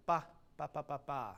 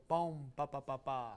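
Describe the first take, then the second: First: First "ba" cut off, gap, then "ba, ba, ba, ba"; separated BA syllables. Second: "bohm" held into "ba, ba, ba, ba"; sustained "bohm", triplet leaning into final "ba"; leading to downbeat. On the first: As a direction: mimic a mechanical "ba... ba, ba, ba, ba". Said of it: "So it sounds like you're going". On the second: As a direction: connect "bohm" through the triplet to the last "ba". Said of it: "I want you to go". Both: Shown as a demonstration.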